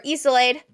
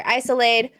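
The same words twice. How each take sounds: First: "Isolade" begun with an EE sound; alternate name pronunciation. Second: "Isolade" begun with a long EYE sound; alternate name pronunciation. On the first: Streamer offering one way to say a friend's name, "Isolade" as EE-suh-layd. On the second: Streamer offering another way to say a friend's name, "Isolade" as EYE-suh-layd. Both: Shown as a demonstration. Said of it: "or however you wanna say it".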